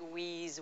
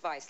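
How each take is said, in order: First: It starts with a W sound, rhyming with 'sneeze'. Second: It starts with a V sound, rhyming with 'nice'. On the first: The speaker calls it wrong. "it looks like wheeze" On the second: The speaker calls it right. "but it's Vice, like the opposite of virtue"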